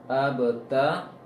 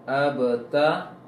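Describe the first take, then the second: No difference in how they are said.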